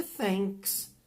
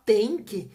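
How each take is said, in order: First: Thanks said with a clear s at the end; thanks with th and final s; slow, thanks ends on a clear s; correct thanks. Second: Slow, thank clipped short; wrong word, thank. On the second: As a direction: thank said with no s at the end. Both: Shown as a demonstration. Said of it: "o que você não pode é cometer erros".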